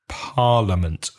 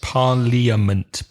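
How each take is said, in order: First: The word is said with three syllables. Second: The word is said with four syllables. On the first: The speaker calls it right. "but the pronunciation is parliament. Three syllables" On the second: The speaker calls it wrong. "So it's like parliament"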